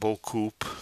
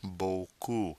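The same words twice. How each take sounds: First: The final P sound is pronounced. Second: The final P sound is silent. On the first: The speaker calls it wrong. "Notice the P is silent. It's not beaucoup" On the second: The speaker calls it right. "Notice the P is silent"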